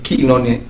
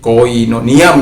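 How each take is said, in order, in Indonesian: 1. Suku kata pertama diucapkan sebagai 'kee'. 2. Suku kata pertama diucapkan sebagai 'koy'. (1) "ketika bertemu dengan iota, maka dia akan dibaca uh, i" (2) "seringkali orang katakan koinonia"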